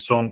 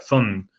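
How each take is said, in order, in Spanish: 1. La palabra empieza con una s clara. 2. La palabra empieza con una th de ceceo. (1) "en vez de decir son" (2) "no podía pronunciar bien la S"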